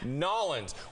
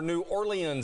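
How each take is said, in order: First: It is said in the clipped local pronunciation. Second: It is said in the standard dictionary pronunciation. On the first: "as the locals there call it" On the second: "as dictionary dot com calls it"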